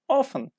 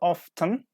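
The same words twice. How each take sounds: First: The T in the middle is silent. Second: The T in the middle is pronounced. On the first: The speaker calls it right. "English speakers often drop the T" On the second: The speaker calls it wrong. "Not often"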